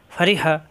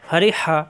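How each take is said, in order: Both takes have the same delivery.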